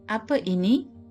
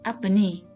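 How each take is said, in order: First: The second word is said in full, two syllables. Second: The second word is shortened to one syllable. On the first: It sounds formal, as for official or royal settings. The speaker calls it wrong. "This may sound too stiff to my ear" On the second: It sounds casual, as in everyday speech. The speaker calls it right. "Ni is a contraction of ini"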